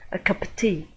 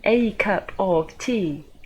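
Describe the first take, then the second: First: Only cup and tea are stressed. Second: The small words are stressed as well.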